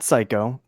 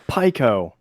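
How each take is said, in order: First: The name begins with an s sound. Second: The name begins with a p sound. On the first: The speaker calls it wrong. "Not Psycho" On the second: The speaker calls it right.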